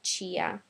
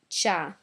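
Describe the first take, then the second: First: The i is sounded as a separate syllable. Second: The i is silent, giving one syllable. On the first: The speaker calls it wrong. "not Chia" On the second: The speaker calls it right. "and Cha"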